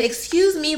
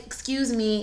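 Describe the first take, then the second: First: Higher, impatient excuse me; losing patience with the hat lady; frustrated. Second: Soft, sugary excuse me, quieter; sweet polite ask. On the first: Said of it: "I got so frustrated". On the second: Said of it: "I'm trying to be real sweet". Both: Retold or imitated.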